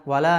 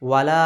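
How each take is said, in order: The two takes are said the same way.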